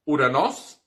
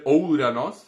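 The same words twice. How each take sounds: First: Uranos with a plain U, the correct reading; right reading. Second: Ouranos with a full OU diphthong, the rejected reading; wrong reading. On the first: Teacher giving students the correct pronunciation. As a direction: say Uranos with a clean U. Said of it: "e sim". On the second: Teacher showing students the wrong pronunciation, mock. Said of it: "não vamos dizer Ouranos". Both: Shown as a demonstration.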